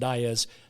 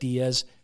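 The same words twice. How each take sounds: First: The name is said the regional Iowa way. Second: The name is said the widely common way. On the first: This is how people from Iowa say it. "if you're an Iowan, which she was, it's pronounced Diaz" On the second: This is how most people say it. "most people pronounce that Diaz"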